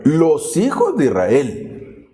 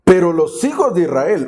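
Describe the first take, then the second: First: "los hijos de Israel" drawn out slowly; slow, deliberate stress on "los hijos de Israel"; emphatic repeat. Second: Said in the usual way. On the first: Shown as a demonstration. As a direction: stretch "los hijos de Israel" so listeners notice it.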